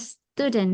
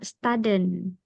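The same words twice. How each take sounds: First: The first vowel sounds like 'oo'. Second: The first vowel sounds like 'uh'. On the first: The speaker calls it right. "Jadi bacanya student" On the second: The speaker calls it wrong. "not student"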